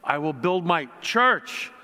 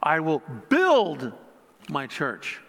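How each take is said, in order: First: The word 'church' is stressed. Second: The word 'build' is stressed. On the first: "putting an emphasis on each word" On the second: "putting an emphasis on each word"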